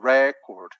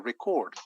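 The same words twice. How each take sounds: First: The stress is on the first syllable. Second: The stress is on the second syllable. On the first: It is a noun, like a world record. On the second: It is a verb meaning to register something.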